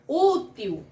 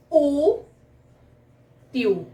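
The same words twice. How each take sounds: First: Said in the usual way. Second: "útil" split as ú... til, long pause between; syllable-by-syllable stress. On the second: Shown as a demonstration. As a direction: stretch out "útil" slowly, stressed ú first. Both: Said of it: "é a sílaba mais forte".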